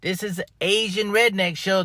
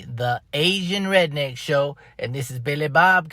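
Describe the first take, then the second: First: Said in the usual way. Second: Show announcer. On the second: Shown as a demonstration. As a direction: announce the show title grandly. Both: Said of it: "the one and only".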